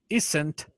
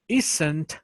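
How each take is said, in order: Both takes have the same delivery.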